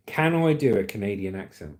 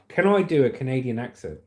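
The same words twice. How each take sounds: The two takes are said the same way.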